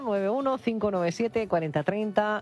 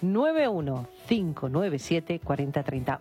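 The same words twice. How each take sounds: First: The number is said fast. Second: The number is said slowly.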